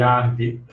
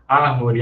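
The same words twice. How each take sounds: First: A syllable is dropped, leaving two. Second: All three syllables are said in full. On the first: This is the reduced rural or urban form. "sofreram uma redução" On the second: This is the prestige form. "proparoxítonas nas variedades de prestígio"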